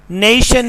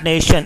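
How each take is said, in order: First: "nation" with a gliding "ay"; British pronunciation. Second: "nation" with a pure "eh"; Pakistani pronunciation. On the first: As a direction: say nation as "neh-ee-shun". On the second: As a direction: say nation as "neh-shun", no glide. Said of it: "but not nation". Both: Shown as a demonstration.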